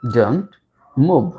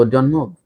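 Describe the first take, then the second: First: "Don't", long pause, "move"; teacher spacing out "Don't move"; word by word. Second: Said in the usual way. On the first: Shown as a demonstration. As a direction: separate "Don't" and "move" for learners.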